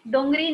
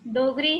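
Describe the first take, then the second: First: There is a nasal sound before the g. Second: There is no nasal sound before the g. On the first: The speaker calls it wrong. "डोंगरी नहीं" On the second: The speaker calls it right. "डोगरी है"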